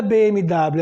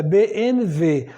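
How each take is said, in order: First: BMW with W as Portuguese "dáblio"; wrong letter name. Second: BMW with W said as "vê"; German letter name. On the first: Teacher rejecting the usual name, wrong letter name. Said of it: "Não é B M W". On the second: Teacher correcting the car name, German letter name. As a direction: give the W in BMW a V sound. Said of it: "O W no alemão tem som de V". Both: Shown as a demonstration.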